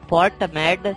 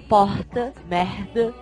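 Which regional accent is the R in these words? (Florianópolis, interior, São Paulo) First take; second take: interior; Florianópolis. First: The R is pronounced tight, in a regional interior style. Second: The R is pronounced in a Florianópolis style. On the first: "na minha região se fala um R apertadinho" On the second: "em Florianópolis é"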